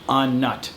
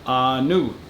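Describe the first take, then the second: First: It is read as two English words, on nut. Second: It is said the Thai way, sounds blended. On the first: The speaker calls it wrong. "the way that they wrote it out in English" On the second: The speaker calls it right. "it's pronounced Anu"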